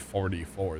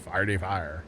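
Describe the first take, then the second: First: The vowels are the standard 'or' sounds. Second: The vowels shift toward 'ar' and 'ire' sounds. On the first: The speaker calls it right. "They they don't say forty-four" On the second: The speaker calls it wrong. "that's legitimately how people talk from Saint Louis"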